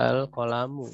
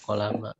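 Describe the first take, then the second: First: The word ends with a 'u' vowel. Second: The word ends with an 'a' vowel. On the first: The speaker calls it right. "lebih cocok dibaca al-qalamu" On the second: The speaker calls it wrong. "tidak al-qalama"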